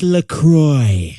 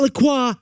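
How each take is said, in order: First: The name is said the American way. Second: The name is said the French way. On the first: The speaker calls it right. "named after a river in the Midwest" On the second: The speaker calls it wrong. "not a vineyard in France"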